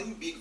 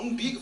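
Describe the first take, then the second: First: Lightly voiced man, matter-of-fact "Umbigo"; understated acted reply; suitor's answer. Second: Higher, louder questioning "Umbigo?"; acted incredulous repeat; shocked echo. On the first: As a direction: say "Umbigo" low-key with an "im" start. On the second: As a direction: throw "Umbigo?" back in disbelief, rising. Her shocked echo of his answer.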